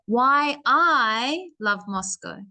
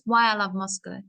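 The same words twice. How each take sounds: First: The short words are lengthened and given weight. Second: The short words are said quickly and lightly. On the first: The speaker calls it right. "I give time to these little words" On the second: The speaker calls it wrong. "not just"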